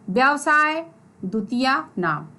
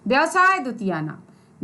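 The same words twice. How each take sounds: First: It is said in two parts with a pause. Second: It is said joined together without a pause. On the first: "आप इसको दो भाग में पढ़िए" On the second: "जोड़ दीजिए"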